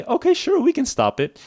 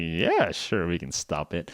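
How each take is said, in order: First: Much higher, bright helpful caller; friendly agent voice. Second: A touch lower and softer, sly grin; smiling bad guy. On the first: Retold or imitated. Scam caller pretending to help, high and cheerful. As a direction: sound eager to help the victim. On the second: Scammer revealing his scheme, lightly sly and smug. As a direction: let the villain smile through it. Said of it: "the bad guy starts to smile".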